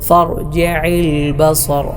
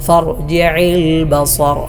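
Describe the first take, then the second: No difference in how they are said.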